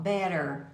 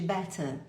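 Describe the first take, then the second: First: "Better" with flapped t, like "bedder"; American accent on "Better". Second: "better" with a clear t; British accent on "better". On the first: Teacher contrasting American "Better" with the British one. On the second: Teacher contrasting British "better" with the American one. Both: Shown as a demonstration. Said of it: "ao invés de better".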